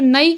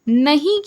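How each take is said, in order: First: The word has no breathy h sound. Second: The word has a breathy h sound. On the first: This is the Bundeli dialect form. "अल्प प्राण हो जा रहा है" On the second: This is the standard Hindi form. "महाप्राण हो जा रहा है"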